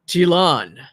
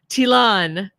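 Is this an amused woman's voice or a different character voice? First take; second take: different character; amused woman. First: It is said in a different character's voice. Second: It is said in an amused, good-humored woman's voice.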